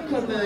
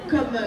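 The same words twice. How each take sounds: The two takes are said the same way.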